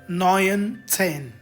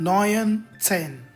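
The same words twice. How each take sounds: Both takes have the same delivery.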